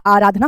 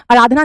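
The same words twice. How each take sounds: First: आराधना with long first 'aa'; correct pronunciation. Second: आराधना with short first 'a', "a-raadhna"; wrong pronunciation. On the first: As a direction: say आराधना as "AA-raadhna". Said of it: "आराधना होता है". (आराधना में लंबा 'आ') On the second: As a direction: clip the start of आराधना. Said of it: "आराधना नहीं होता". (आराधना को 'अराधना' बोलना) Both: Shown as a demonstration.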